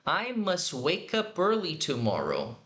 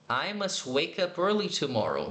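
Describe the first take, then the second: First: Slow, careful model sentence; slow teacher demo. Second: Said in the usual way. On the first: Shown as a demonstration. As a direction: say each word slowly and clearly. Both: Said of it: "juntando aqui na pronúncia".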